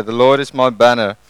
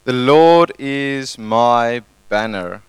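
First: Louder, stressing Lord; shouted declaration. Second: Slow, deliberate declaration; slow modelled phrase. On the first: Congregation told to shout it out, louder declaration. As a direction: call it out to the room. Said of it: "And we shout it out". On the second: Pastor modelling the phrase for neighbours, slow and deliberate. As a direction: spell it out slowly for the congregation. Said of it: "say to the person next to you". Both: Shown as a demonstration.

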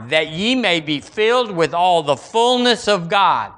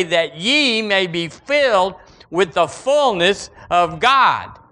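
First: Said in the usual way. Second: Slow and weighty, filled leaned on; emphatic reading. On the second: Shown as a demonstration. Preacher reading the verse to the church, slow and emphatic. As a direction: read it as the wild statement it is. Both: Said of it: "can't believe they said it statement to say".

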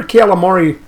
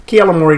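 First: Said in the usual way. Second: Calamari with a flat "kel" start and "mor" middle, like "kel-a-mor-ee"; hometown pronunciation. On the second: Shown as a demonstration. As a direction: say calamari the way folks back home do, "kel-a-mor-ee". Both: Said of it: "that's how they'd say it where I grew up".

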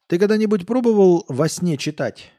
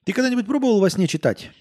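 First: A tipsy coder probing; drunk question. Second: Put-on much higher, fast drunken question; excited drunk. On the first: Acted. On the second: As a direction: blurt it out eagerly. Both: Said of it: "Он пьяно посмотрел".

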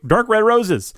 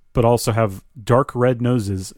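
First: "roses" said high and pointed as the fix; corrected roses. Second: "noses" read in place of roses, evenly; misread noses. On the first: Reader catching their own slip, corrects to roses high. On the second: Reading the card aloud, misreads roses as noses, flat. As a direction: reader slips, reading "noses" flatly. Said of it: "Wait, dark red roses". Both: Shown as a demonstration.

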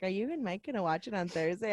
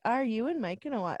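First: Soft, understated, offhand question; casual asking. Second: Soft, lightly encouraging question; mild encouragement. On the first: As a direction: ask it quietly, without any real push. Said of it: "Well, I didn't really encourage". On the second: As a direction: gently nudge with the question, keeping it soft. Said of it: "I was kind of encouraging you". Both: Retold or imitated.

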